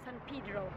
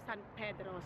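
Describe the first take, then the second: First: The name is said with an American pronunciation. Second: The name is said with a Filipino pronunciation. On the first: This is how locals in Los Angeles say it. "here they pronounce it San Pedro" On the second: This is how Filipinos say it. "pero tayo mga Pilipino San Pedro"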